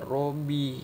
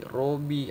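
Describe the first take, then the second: The two takes are said the same way.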